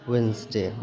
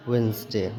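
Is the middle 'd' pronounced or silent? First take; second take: silent; silent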